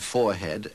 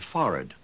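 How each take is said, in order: First: Every syllable is pronounced fully as spelled. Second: The word is clipped with reduced syllables.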